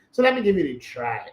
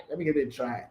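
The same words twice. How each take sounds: First: Said in the usual way. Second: Repeated much softer, to himself; soft aside. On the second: Shown as a demonstration. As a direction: murmur it again under the breath.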